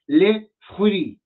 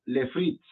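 First: "les fruits" slowly, in French, silent final letters, "fruits" as fruí; correct French. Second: "Les fruits" read as Spanish, every letter sounded; Spanish-style French. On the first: Teacher correcting the students with slow proper French "les fruits". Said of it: "No, es les fruits". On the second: Teacher imitating the students' Spanish-style "Les fruits". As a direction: say "Les fruits" the way a Spanish speaker would misread it. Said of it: "la tendencia es hablarlo como español". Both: Shown as a demonstration.

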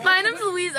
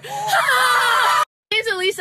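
First: Said in the usual way. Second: Mock intro. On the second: Retakes the intro drawn out.

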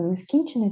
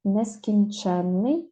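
First: Нескінчений stressed on "кін", "че" unstressed; stress on the root. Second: Нескінченний drawn out, stressed on "чен"; slow Нескінченний, lean on "чен"; stress on the suffix. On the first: Teacher contrasting the single-н word, stress on "кін" in нескінчений. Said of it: "якщо не падає". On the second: Teacher showing the double-н word, stress on "чен" in Нескінченний. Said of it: "якщо наголос падає на суфікс". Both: Shown as a demonstration.

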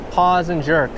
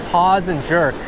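No difference in how they are said.

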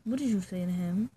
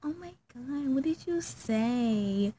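First: Said in the usual way. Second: Lightly voiced excitable kid, drawn-out ending; mock an eager youngster, stretching the words; gushing youngster impression. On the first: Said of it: "Like, nah. But I was like". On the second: Mimicking little youngins begging for gossip, mock gushing. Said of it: "how them little youngins be like".

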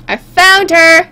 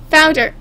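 First: Slow, higher stress on FOUND; emphatic repeat. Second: Said in the usual way. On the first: Acted. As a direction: draw out "found her", raised in pitch. Repeats it as mock complaint.

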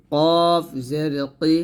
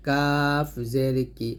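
First: "কফ" with a thick, full back-of-mouth k, said slowly; heavy Arabic qaf in "কফ", drawn out. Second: "কাফ" with a thin, light front k, said slowly; light Arabic kaf in "কাফ", slow and clear. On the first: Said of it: "এটা পাতলা করে বলতে হবে". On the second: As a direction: keep "কাফ জের কি" light and forward in the mouth. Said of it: "পাতলা করে বলতে হবে কাফ জের কি". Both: Shown as a demonstration.

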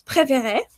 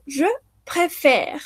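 First: "préférer" ending in a sounded é; infinitive pronunciation. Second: "je préfère" ending on the r, last e silent; silent final E. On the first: Teacher models the infinitive, final E sounded. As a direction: voice the last E of "préférer". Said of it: "Para el infinitivo decimos". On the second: Teacher models the present, final E silent. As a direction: finish "je préfère" on an open è and r. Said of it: "la última E ya no suena". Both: Shown as a demonstration.

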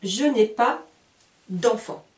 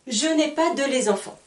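First: Je n'ai pas d'enfants with d' joined to enfants; the correct d'enfants; correct form. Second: Je n'ai pas de les enfants with de les as the error; learner's error, de les enfants; wrong form. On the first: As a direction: say pas d'enfants as one linked unit. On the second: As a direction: rattle off the mistake de les enfants. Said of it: "je ne veux pas entendre". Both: Shown as a demonstration.

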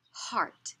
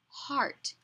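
First: Whispered model. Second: Said in the usual way. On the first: Shown as a demonstration. Teacher whispering the word for a child to repeat. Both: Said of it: "You say it".

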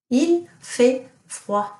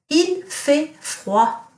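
First: Il fait froid repeated slowly; teacher repeating Il fait froid for pupils; slow model sentence. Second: Il fait froid very slow and higher; teacher quizzing class with Il fait froid; slow model sentence. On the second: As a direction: stretch Il fait froid out word by word. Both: Shown as a demonstration. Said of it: "what does it mean if I say".

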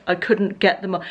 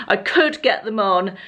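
First: Said in the usual way. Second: Slow correction leaning on "could"; stress on COULD. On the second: Real, not acted. Vlogger correcting herself about the jeans, "could" stressed and drawn out.

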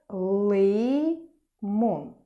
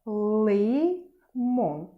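First: Teacher voicing the word so the first syllable stands out; model word again. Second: Лимон in a lighter, different voice; teacher voicing the pupil's answer; child-like model word. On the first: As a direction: say Лимон and lean on ли. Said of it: "Який перший склад?". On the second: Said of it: "Наступний предмет". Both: Shown as a demonstration.

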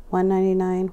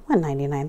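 First: Said in the usual way. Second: Lower, disbelieving repeat of "One ninety-nine"; incredulous. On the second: Real, not acted. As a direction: say "One ninety-nine" again as if you can't believe the bargain. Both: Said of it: "that's ridiculous".

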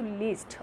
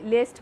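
First: "লিস্ট" with an ee vowel, like English least; long ee sound. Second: "লেস্ট" with an e vowel, as in lest; mispronounced with e. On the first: Teacher giving students the right sound, "লিস্ট" with a clear ee. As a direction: say "লিস্ট" with ee, not e. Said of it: "এটা sound কিন্তু লিস্ট". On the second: Teacher warning students off a mistake, "লেস্ট" with an e vowel. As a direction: say least wrongly as "লেস্ট", with e for ee. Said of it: "লেস্ট বলো না আবার". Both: Shown as a demonstration.

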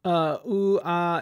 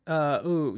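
First: Higher, louder cartoonish yelp; goofy cartoon band voice. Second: Said in the usual way. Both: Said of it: "in my Gorillaz voice".

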